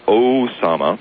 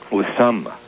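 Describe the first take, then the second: First: The name begins with an 'oh' vowel. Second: The name begins with an 'oo' vowel. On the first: The speaker calls it wrong. "the actual correct pronunciation is not Osama" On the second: The speaker calls it right. "Usama, like that"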